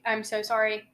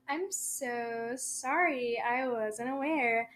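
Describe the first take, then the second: First: Said in the usual way. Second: Very slow, softer, meek; slow, quiet, nervous apology; mock timid apology. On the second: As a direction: tiptoe through it like she might bite. Timid apology to scary girlfriend.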